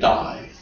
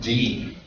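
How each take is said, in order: First: The vowel sounds like 'eye'. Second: The vowel sounds like 'ee'. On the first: The speaker calls it wrong. "Don't say die" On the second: The speaker calls it right. "we call that D"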